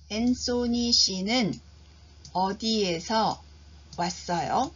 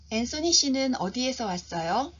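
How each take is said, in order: First: It is spoken slowly and deliberately. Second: It is spoken at a normal, natural speed. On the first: "천천히 한 번 들려드립니다" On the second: "표준 속도로 제가 두 번 들려드립니다"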